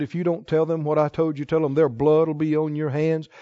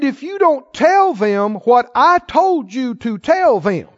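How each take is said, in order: First: Said in the usual way. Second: Slow, "to tell them" weighted and drawn out; stress on TELL THEM. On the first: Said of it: "That's not what he said". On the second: Shown as a demonstration. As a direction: lean hard on the words "what I told you to tell them". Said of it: "That's not what he said. He said".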